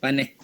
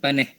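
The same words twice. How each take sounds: First: It is pronounced in Negeri Sembilan dialect. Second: It is pronounced in Negeri Sembilan dialect.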